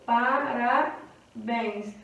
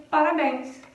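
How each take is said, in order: First: "Parabéns" very slow, PA-RA, pause, BÉNS; syllable by syllable. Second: Said in the usual way. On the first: Shown as a demonstration. Teacher showing a nossa última sílaba, "Parabéns" slowly broken into syllables. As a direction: break "Parabéns" slowly into parts, ending on BÉNS. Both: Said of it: "A nossa última sílaba".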